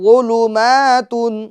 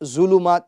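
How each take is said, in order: First: The first consonant is soft without a 'j/z' sound. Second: The first consonant is forceful with a 'j/z' sound. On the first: The speaker calls it right. "वा में शिद्दत नहीं लानी है बल्कि नरमी से इसको पढ़ना है" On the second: The speaker calls it wrong. "वा में जा की आवाज नहीं आए यानी जुलुमात जुलुमात जुलुमात ये गलत है"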